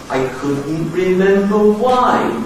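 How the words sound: The pitch rises in one smooth climb. "start to consciously bring your voice up"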